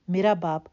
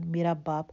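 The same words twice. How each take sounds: First: Louder, breaking into a scream; hysterical shout. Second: Said in the usual way. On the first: A narrator's reading. Daughter screams at the father who sold her, loud. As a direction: shriek it out. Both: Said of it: "ہسٹریائی انداز میں چیخنے لگی".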